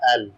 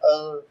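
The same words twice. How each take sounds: First: The L is said plainly, like the letter name. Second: The L is said dark, deep in the throat. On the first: "simple L that we pronounce in letters as well" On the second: "Dark L, L in this way"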